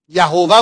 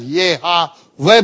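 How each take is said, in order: First: "یهوه" said as ya-ho-va; pronounced Yahova. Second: "یهوه" said slowly as ye-ha-ve; pronounced Yehaveh. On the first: Teacher showing one possible reading, "یهوه" as Yahova. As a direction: say "یهوه" with an o in the middle, ya-HO-va. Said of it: "باید تلفظش کرد". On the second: Teacher showing the other possible reading, "یهوه" as Yehaveh. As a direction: sound out "یهوه" with e and a, ye-ha-ve. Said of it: "اینو باید چطوری تلفظش کرد". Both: Shown as a demonstration.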